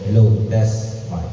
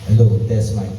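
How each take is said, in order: First: The voice has an added echo effect. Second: The voice sounds dry, without added echo.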